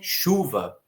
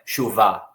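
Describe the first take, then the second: First: The stress is on the first syllable. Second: The stress is on the last syllable. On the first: The speaker calls it right. "é chuva ... a sílaba tônica é a penúltima" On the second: The speaker calls it wrong. "não é chuva"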